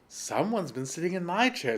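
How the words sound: The voice is medium in pitch and size. "in her middle sized voice"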